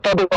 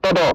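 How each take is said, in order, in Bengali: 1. দুটি বর্ণ আলাদাভাবে উচ্চারিত হয়। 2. দুটি বর্ণ আলাদাভাবে উচ্চারিত হয়।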